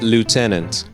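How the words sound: It is said with an American pronunciation. "and in American English, it's lieutenant"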